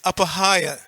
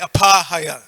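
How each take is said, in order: First: The short and long A vowels are kept. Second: The short and long A vowels are swapped. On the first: The speaker calls it right. "It's apahaya" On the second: The speaker calls it wrong. "we tend to say apahaya"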